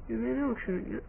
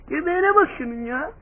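First: Much softer, almost under the breath: "Göbeğine bak şunun ya"; quiet aside. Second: Said in the usual way. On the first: Real, not acted. Vlogger coos over the puppy's belly, said softly. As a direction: murmur "Göbeğine bak şunun ya" fondly to yourself.

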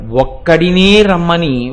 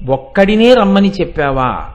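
First: ఒక్కడినే slowed and leaned on; stress on ఒక్కడినే. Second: Said in the usual way. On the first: Shown as a demonstration. Preacher stressing ఒక్కడినే, slow and weighty. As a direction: hit ఒక్కడినే, the word alone. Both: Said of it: "రమ్మని చెప్పడం కాదు, ఒక్కడినే రమ్మని".

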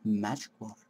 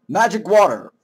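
First: Low, soft item name; hushed reading. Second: Full-voiced, rising-and-falling exclamation; announced exclamation. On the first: Acted. Reading out the item found, low and hushed. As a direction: say it low and very softly. First take, read quietly. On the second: Announcing the magic item, full-voiced exclamation. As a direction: proclaim it with a flourish.

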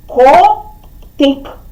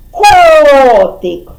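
First: КОТИК split into ко and тик, pause between; two separate, measured syllables in Котик. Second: КОТИК with a long, loud КО; stress on first syllable. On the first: Teacher dividing the riddle answer for children, КОТИК syllable by syllable. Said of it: "слово котик поділимо на склади". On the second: Teacher finding the stress with children, КО drawn out in КОТИК. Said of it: "А зараз визначимо наголос". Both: Shown as a demonstration.

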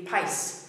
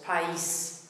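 First: "país" run together as one syllable, like "pice"; wrong one-syllable version. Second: "país" split as pa-EES; accented "país" in two clear syllables. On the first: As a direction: glide the a into the i in "país". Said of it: "if the accent wasn't on the E". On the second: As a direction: stress the separate i in "país", pa-EES. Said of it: "the accent there splits into two syllables". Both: Shown as a demonstration.

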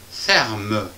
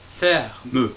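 First: Ferme said as two clean beats, fer then me; syllable by syllable. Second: Ferme with an audible final e, fer-meu; two-syllable ferme. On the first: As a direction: split ferme into two spoken parts. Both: Shown as a demonstration. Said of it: "Deux syllabes".

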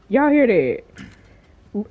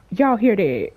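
First: Drawn out very slowly; slow, wary. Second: Said in the usual way. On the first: Real, not acted. Gamer asking viewers whether they hear it, slow and wary. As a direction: stretch it out while listening. Repeats slowly, listening warily.

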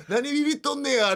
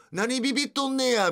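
First: Higher mock thug in clumsy Kansai dialect, 何ビビっとんねや sneered; the thug repeats 何ビビっとんねや in fake Kansai dialect; bad Kansai dialect. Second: High mock thug in clumsy Kansai dialect, 何ビビっとんねや sneered; bad Kansai dialect. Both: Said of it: "下手くそな関西弁で".

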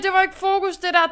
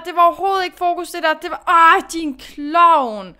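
First: Annoyed self-scolding. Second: Fast, loud, higher tirade at herself; exasperated self-scolding. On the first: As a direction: tell yourself off for losing focus. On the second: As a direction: berate yourself, fast and loud. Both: Real, not acted. Scolding herself after mistake.

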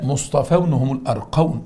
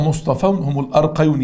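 First: "مصطفون" and "الأرقون" both ending in "-awn"; correct plural form. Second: "مصطفون" with "-awn", then "الأرقيون" wrongly with "-ayun"; second word wrong. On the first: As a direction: model "الأرقون" with no y, just "-awn". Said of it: "صح". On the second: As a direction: slip a y into "الأرقيون". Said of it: "الأولى صح بس التانية غلط". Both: Shown as a demonstration.

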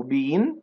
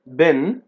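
First: British "been" with a long ee; British accent. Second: American "Been", short vowel like "ben"; American accent. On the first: Teacher contrasts two accents, British "been" with a long vowel. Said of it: "بالبريتش accent". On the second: Teacher contrasts two accents, American "Been" with a short vowel. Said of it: "بالأمريكان accent". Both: Shown as a demonstration.

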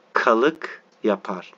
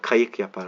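First: "kalık" read slowly with an L, the wrong word; slow, careful misreading "kalık yapar" with an L sound. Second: "Kayık" said clearly with a Y sound, stressed; corrected reading. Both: Shown as a demonstration. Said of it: "Kalık yok, kayık".

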